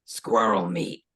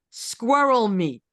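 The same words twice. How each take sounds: First: Low, slow deadpan answer; deadpan vendor. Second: Put-on slow, louder German-accented echo; German tourist echoing the vendor in a mild accent. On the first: Retold or imitated. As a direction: say it flat and low without a thought. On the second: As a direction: repeat it slowly in a German accent. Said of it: "but in a German accent".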